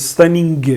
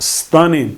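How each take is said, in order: First: A hard g sound is pronounced at the end. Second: No hard g sound is heard at the end. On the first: The speaker calls it wrong. "We don't say stunning" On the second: The speaker calls it right. "we don't often pronounce G"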